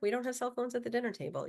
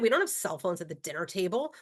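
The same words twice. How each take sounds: First: It is said in a gentle, reminding tone. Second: It is said in a harsh, scolding tone. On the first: The rule is delivered with empathy and connection. The speaker calls it right. "We just say, oh, remember" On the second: The rule is delivered with judgment and contempt. The speaker calls it wrong. "I don't say, what are you, stupid?"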